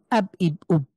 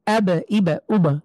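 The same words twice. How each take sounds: First: আব, ইব, উব closed dead on the ব; no qalqalah bounce. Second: আব, ইব, উব with each ব popped open into an echo; qalqalah bounce. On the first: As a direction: stop each ব at the lips with no echo. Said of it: "আমরা ধাক্কা না দেই". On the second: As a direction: bounce the lips off ব with a short "e" after it. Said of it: "এটা আরেক রকম শোনায়". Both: Shown as a demonstration.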